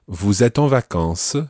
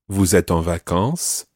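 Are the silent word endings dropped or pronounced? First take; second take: pronounced; dropped. First: The silent word endings are pronounced. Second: The silent word endings are dropped. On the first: "this lady says ... where you almost pronounce the silent endings" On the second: "earlier, I said"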